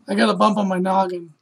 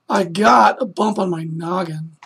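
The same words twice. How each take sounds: First: The word 'got' carries no special emphasis. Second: The word 'got' carries strong emphasis. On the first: "he's not just saying" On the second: "the word got would be like bold, because you're putting more emphasis on that word"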